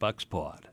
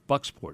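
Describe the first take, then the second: First: It is said in a Maine accent. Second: It is said in a standard accent.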